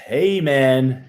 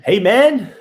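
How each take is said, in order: First: Said in the usual way. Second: "man" lifted high and louder, falling; hey man, high on man. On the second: Shown as a demonstration. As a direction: hit "man" high then drop. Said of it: "Or hey, man?".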